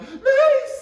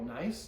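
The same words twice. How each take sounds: First: It is said with lively, exaggerated pitch. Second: It is said with calm, level pitch.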